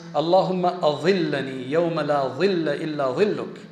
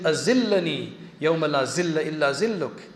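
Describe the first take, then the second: First: The key words are said with a dh sound. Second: The key words are said with a z sound. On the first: It asks for shade on a day without shade. The speaker calls it right. "The dua is" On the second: It changes the meaning of the prayer. The speaker calls it wrong. "And she's saying"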